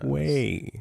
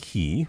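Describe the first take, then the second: First: The word starts with a kw sound. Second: The word starts with a plain k sound. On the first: The speaker calls it right. "With a Q" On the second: The speaker calls it wrong. "Not key"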